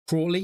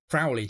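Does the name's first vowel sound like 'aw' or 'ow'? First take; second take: aw; ow. First: The first vowel sounds like 'aw', American style. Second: The first vowel sounds like 'ow', British style. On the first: "I think the American way of saying it was Crawley" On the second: "Giles said Crowley"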